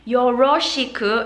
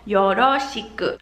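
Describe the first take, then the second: First: The R is a smooth English-style R. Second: The R is a quick D-like flap. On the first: The speaker calls it wrong. "I don't want to hear any よろしく" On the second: The speaker calls it right. "I want to hear よろ"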